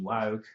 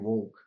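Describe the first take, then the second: First: It is said in an Australian accent. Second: It is said in an American accent. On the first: "my Australian pronunciation"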